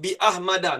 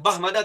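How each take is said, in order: First: A glottal stop separates bi from Ahmada. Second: Bi runs straight into Ahmada without a break. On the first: The speaker calls it right. "Contoh bi Ahmada" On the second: The speaker calls it wrong. "nak baca Bahmada tak boleh baca"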